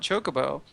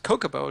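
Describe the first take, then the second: First: The word begins with a ch sound. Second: The word begins with a hard k sound. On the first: The pronunciation used in the game's voice acting. "And I know there's a C H" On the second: The pronunciation the speaker has always used. "It was Kokobo"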